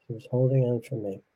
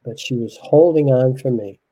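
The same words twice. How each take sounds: First: Softer repeat of "She was holding on for me"; quiet repeat. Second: Said in the usual way. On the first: Real, not acted. Husband repeats it to himself, far softer.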